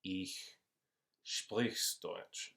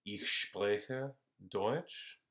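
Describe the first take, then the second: First: Said in the usual way. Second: Ich spreche Deutsch said very slowly, word by word; slow teaching example; slow clear demo. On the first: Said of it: "no puedo decir". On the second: Shown as a demonstration. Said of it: "puedo decir".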